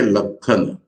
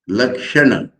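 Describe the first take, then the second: First: The middle consonant is pronounced as 'kh'. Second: The middle consonant is pronounced as 'ksh'. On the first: "they will say Lakhana" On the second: "pronouncing Lakshana"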